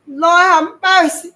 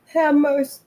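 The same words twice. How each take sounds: First: High, loud, slow anguished wail; desperate plea. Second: High, loud crying plea; fearful plea. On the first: Terrified boy pleading to God, a slow loud wail. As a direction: beg for mercy, drawn out in terror. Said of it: "I pleaded again". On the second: Frightened boy begging God while crying. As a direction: cry out to God in terror. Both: Acted.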